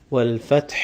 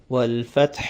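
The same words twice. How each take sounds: Both takes have the same delivery.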